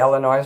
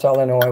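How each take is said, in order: First: The final S is pronounced. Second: The final S is silent. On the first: The speaker calls it wrong. "I say Illinois on purpose to piss people off" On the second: The speaker calls it right. "it's Illinois with no S"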